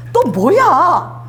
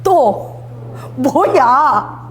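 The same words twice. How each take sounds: First: Drawn-out, exasperated "또 뭐야?" as a weary father; annoyed God voice. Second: "또 뭐야?" stretched very slowly with a sigh-like weight; exasperated demo. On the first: Acted. Preacher voicing God, fed up with Moses' requests, slow exasperated drawl. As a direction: stretch it slowly like a fed-up father. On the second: Shown as a demonstration. Preacher demonstrating God's reply for the congregation, very slow weary drawl. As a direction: show the congregation how a fed-up father says it. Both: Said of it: "딱 해보세요".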